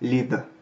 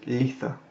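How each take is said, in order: First: The TH sound is hard, almost a D. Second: The TH sound is soft and light. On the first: "on insiste dessus, ça donne lid" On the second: "en anglais moderne, ça se prononce litha"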